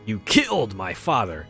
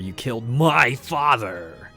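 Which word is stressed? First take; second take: killed; my. First: The stress falls on the word killed. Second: The stress falls on the word my.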